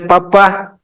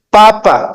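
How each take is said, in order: First: The stress is on the last syllable. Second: The stress is on the first syllable. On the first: The speaker calls it right. "se dice papá ... tiene un acento en la última A" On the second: The speaker calls it wrong. "no se dice papa"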